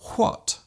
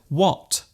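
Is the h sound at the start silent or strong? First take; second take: strong; silent. First: It starts with a strong breathy h sound. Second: It starts with no breathy h sound. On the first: The speaker calls it wrong. "they might say what" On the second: The speaker calls it right. "Instead of what"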